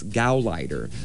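The word is said with an American pronunciation. The speaker calls it right. "back in the typical American accent"

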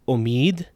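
It is said with the Iranian vowel. "which in Iran is pronounced umid"

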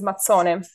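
It is said in the northern form, mazzone. "But in the north is Mazzone"

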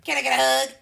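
It is said in a closed, negative tone.

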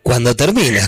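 It is said with a statement intonation. It answers that love ends when it ends. "llevaba la respuesta solamente con un cambio de acento"

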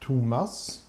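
The name is said the Swedish way. "Like in Sweden, it's like"

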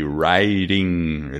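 It is said with an American accent.

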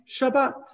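It ends in a t sound, Sephardi style.

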